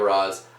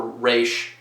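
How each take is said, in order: First: It has a short o and ends in z. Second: It has a long ay and ends in sh. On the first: This is the speaker's own usual pronunciation. "I always pronounce it Roz" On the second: Other people use this pronunciation. "Some people pronounce it pronounce it Raish"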